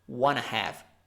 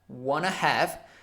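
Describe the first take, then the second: First: Want to is run together as wanna. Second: Want to is run together as wanna.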